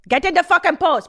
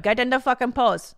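First: Higher, louder repeat of the order; mock furious shout. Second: Mock chastising. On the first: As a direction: yell the order at the student. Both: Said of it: "chastising this woman".

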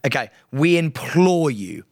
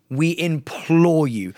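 First: Said in the usual way. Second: "implore" drawn out slowly, earnest and grave; slow solemn plea. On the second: Shown as a demonstration. Host begging listeners to vote, slow and solemn. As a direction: say "We implore you" slowly and weightily, like a formal appeal. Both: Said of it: "do this properly and sincerely".

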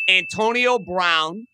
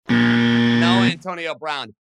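First: Said in the usual way. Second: Low, loud and very slow denial; deep game-show no. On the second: Acted. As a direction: drag it out like a buzzer rejection. Rejects own guess in mock voice.

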